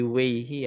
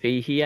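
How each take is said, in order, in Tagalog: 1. Nagsisimula ang salita sa tunog na W. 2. Nagsisimula ang salita sa tunog na V. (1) "hindi Weihi" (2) "Vehi yan"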